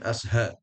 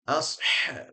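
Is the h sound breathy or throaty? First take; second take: breathy; throaty. First: The h is a light, plain breathy h. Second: The h is made deep and tight in the throat. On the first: The speaker calls it wrong. "bukan asha" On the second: The speaker calls it right. "Asha, bukan asha"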